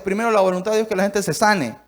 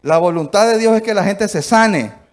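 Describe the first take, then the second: First: Said in the usual way. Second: The same line again, much louder and weightier; louder repeat. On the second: Shown as a demonstration. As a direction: hammer it home the second time. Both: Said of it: "repeats the line".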